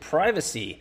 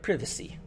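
First: It is said with an American pronunciation. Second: It is said with a European pronunciation.

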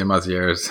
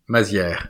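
First: The name is said with an English pronunciation. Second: The name is said with a French pronunciation. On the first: "in English, most people say Mazier's" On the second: "it's French. It's Mazier, actually"

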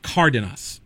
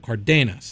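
First: The stress is on the first syllable. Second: The stress is on the second syllable. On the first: The written accent mark moves the stress. The speaker calls it right. "They push it to the first A, so now it's" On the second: This is the default Spanish stress without an accent mark. The speaker calls it wrong. "That would be the emphasis on the second to last syllable"

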